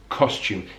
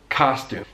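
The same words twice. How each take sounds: First: The first vowel is a rounded 'oh' sound. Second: The first vowel is an open 'ah' sound. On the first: "So it's O in British English" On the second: "A in American English"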